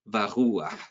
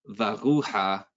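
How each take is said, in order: First: The final vowel comes before the last consonant. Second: The final vowel comes after the last consonant. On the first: The speaker calls it right. "it's supposed to be read varuah" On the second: The speaker calls it wrong. "It's not supposed to be read varuha"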